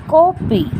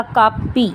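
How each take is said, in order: First: "कॉपी" with a rounded vowel between aa and o; English o vowel. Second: "कापी" with a plain long aa, kaa-pee; plain aa vowel. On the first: Teacher demonstrating the borrowed English sound, rounded aw in "कॉपी". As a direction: say "कॉपी" as kaw-pee. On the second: Teacher first shows the word without the English vowel, plain aa in "कापी". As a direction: say "कापी" with an open aa. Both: Shown as a demonstration. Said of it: "आ और ओ के बीच की sound".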